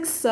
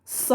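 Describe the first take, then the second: First: Said in the usual way. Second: "s" as a heavy emphatic consonant, Arabic style. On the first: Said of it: "the emphatic s for s". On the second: Shown as a demonstration. Teacher showing emphatic sounds, "s" said emphatic. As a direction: say "s" dark, with pharynx constricted. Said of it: "which is the emphatic s for s".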